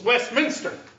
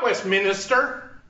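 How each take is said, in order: First: The word is said with three syllables. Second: The word is said with four syllables. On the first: The speaker calls it right. "It has three syllables. It's Westminster. It's no I in there" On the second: The speaker calls it wrong. "It's not Westminster. Doesn't have four syllables"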